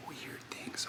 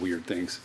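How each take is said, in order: First: Hushed whispered echo; whispering. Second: Said in the usual way. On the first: Shown as a demonstration. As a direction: whisper it back to yourself.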